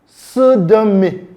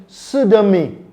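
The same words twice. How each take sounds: No difference in how they are said.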